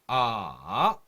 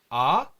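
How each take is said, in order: First: The pitch dips down, then rises. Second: The pitch rises sharply upward. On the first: "삼성도 내려갔다가 올라오는 발음" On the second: "갑자기 이렇게 위로 올라가는 발음을 하는 거예요"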